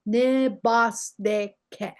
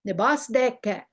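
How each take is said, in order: First: "ne bas de ke" drawn out slowly, each syllable apart. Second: Said in the usual way. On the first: Shown as a demonstration. Teacher modelling "ne bas de ke" for learners, slow and separated.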